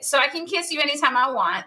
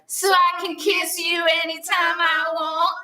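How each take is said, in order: First: It is said in a plain, neutral tone. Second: It is said in a sassy, playful tone.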